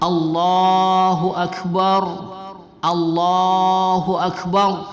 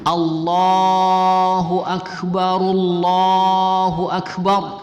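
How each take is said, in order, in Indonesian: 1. Tiap frasa diakhiri wakaf penuh sebelum frasa berikutnya. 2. Frasa pertama langsung bersambung ke frasa kedua. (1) "Itu kalau masing-masing kalimat kita wakafkan" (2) "Tapi kalau kita wasalkan"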